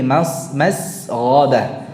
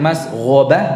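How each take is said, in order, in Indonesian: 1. Bunyi s ditahan sebentar. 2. Bunyi s dipotong pendek. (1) "Ada temponya untuk sinnya mas" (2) "bukan masghabah"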